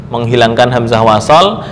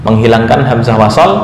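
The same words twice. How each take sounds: The two takes are said the same way.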